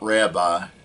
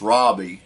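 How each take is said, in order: First: The word is said the common American way. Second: The word is said the original, non-American way. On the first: The speaker calls it wrong. "not Rabbi ... Americans pronounce it Rabbi" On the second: The speaker calls it right. "actually it's pronounced Rabbi"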